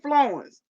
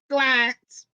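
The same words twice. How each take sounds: First: It is said with standard, non-Cajun pronunciation. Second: It is said in a Cajun Louisiana drawl.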